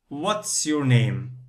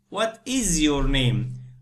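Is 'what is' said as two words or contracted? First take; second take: contracted; two words. First: 'What is' is said as one contracted word. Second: 'What is' is said as two separate full words.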